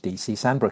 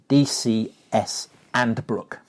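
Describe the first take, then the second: First: The S is joined to the surname. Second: The S is joined to the initials.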